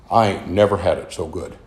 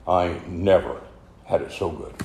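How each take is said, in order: First: Said in the usual way. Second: Soft emotional echo. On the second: Retold or imitated. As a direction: let the line fade softly. Repeated as closing thought.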